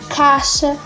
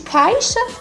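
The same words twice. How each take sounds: First: The vowel runs straight into the sh sound. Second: A short i glide comes before the sh sound. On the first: This is how people actually speak it. "nós falamos" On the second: This is how it is written. "e escrevemos"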